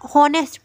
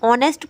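First: The word begins with an audible h sound. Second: The word begins directly with a vowel sound. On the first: The speaker calls it wrong. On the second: The speaker calls it right.

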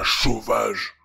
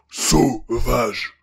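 First: The word begins with an sh sound. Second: The word begins with a clear s sound. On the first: The speaker calls it wrong. "pas chauvage. Niveau prononciation, il y a encore du boulot" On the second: The speaker calls it right. "Sauvage, sauvage"

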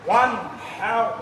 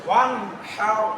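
Both takes have the same delivery.

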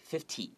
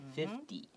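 First: The middle consonant is a clear, crisp T. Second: The middle consonant sounds like a soft D. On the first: The speaker calls it wrong. "if you read it 50, that actually might sound like 15" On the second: The speaker calls it right. "we actually pronounce that like the T like a D"

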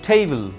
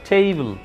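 Both takes have the same delivery.

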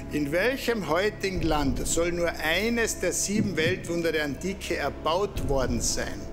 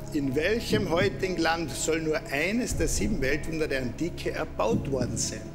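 No difference in how they are said.

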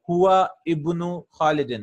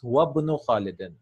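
First: A glottal stop is heard before ibnu. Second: The words run together with no glottal stop. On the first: The speaker calls it wrong. "So we won't say that" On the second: The speaker calls it right. "We will drop this Hamzatul Wasl totally"

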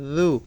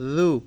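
Both takes have the same delivery.

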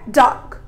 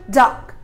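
First: The vowel is short and clipped. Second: The vowel is short and clipped.

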